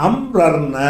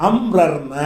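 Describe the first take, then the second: Both takes have the same delivery.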